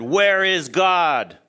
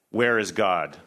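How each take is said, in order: First: It is said loudest, almost shouted. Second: It is said sternly at moderate volume.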